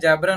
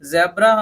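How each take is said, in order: First: It begins with a j sound. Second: It begins with a buzzing z sound. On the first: The speaker calls it wrong. "नहीं बोलना है" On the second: The speaker calls it right. "हम बोल सकते हैं"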